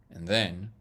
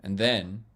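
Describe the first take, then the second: No difference in how they are said.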